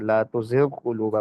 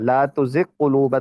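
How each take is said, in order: First: The gh sound is kept separate before q. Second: The gh sound is merged into the q. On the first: The speaker calls it right. "पढ़ते हैं" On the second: The speaker calls it wrong. "तो नहीं ना हम पढ़ते"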